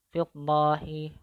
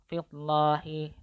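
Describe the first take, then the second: Both takes have the same delivery.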